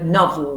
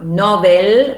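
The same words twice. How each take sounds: First: The second vowel is reduced to a schwa. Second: The second vowel is a full vowel. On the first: The speaker calls it right. "novel with the schwa" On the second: The speaker calls it wrong. "It's not novel"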